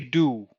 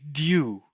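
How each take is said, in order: First: It starts with a plain d, no y glide. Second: It starts with d followed by a y glide. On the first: "so I say do" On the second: "say dew"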